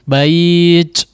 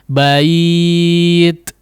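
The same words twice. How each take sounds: First: The final t has a heavy, exaggerated breath release. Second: The final t has a light breathy release. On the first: The speaker calls it wrong. "Jangan terlalu berlebihan" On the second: The speaker calls it right. "Cara pengucapannya kurang lebih seperti ini"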